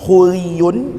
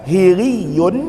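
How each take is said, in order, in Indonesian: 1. Vokal pertama adalah bunyi u. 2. Vokal pertama adalah bunyi i. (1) "bisa dibaca dengan dhammah" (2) "bisa dibaca dengan kasroh"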